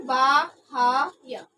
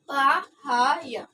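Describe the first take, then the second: First: बाह्य drawn out very slowly, baa-ha-ya; slow syllable-by-syllable बाह्य; spelled-out reading. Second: बाह्य drawn out very slowly, baa-ha-ya; slow separated बाह्य demo; unjoined reading. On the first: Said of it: "परंतु हमें क्या करना है?". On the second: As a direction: stretch बाह्य into three syllables. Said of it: "तो हम इसे लिखते हैं तो क्या होगा ये?". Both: Shown as a demonstration.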